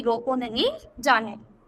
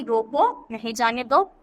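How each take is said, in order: First: Slow, रोको नहीं as one unit, then जाने दो; pause after नहीं. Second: रोको set apart, then नहीं जाने दो together; a break between रोको and नहीं; pause after रोको. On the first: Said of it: "दूसरे उदाहरण में क्या स्पष्ट होता है". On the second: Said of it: "अर्थ स्पष्ट होता है कि". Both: Shown as a demonstration.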